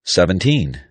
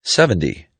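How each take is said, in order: First: Put-on "Seventeen" with a long, clear "teen" and a crisp T; teen ending. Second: "Seventy" with stress up front and a short "dee" ending. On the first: Pronunciation teacher contrasting numbers, "Seventeen" with clear long "teen". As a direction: say "Seventeen" with a full "-teen" syllable. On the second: Pronunciation teacher contrasting numbers, "Seventy" ending in light "dee". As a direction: say "Seventy" with a weak, tapped last syllable. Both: Shown as a demonstration.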